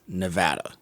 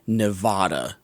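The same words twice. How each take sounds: First: The middle vowel sounds like the 'a' in cat. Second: The middle vowel sounds like the 'a' in father. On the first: The speaker calls it right. "It's Nevada" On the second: The speaker calls it wrong. "they mispronounce Nevada. It's not Nevada"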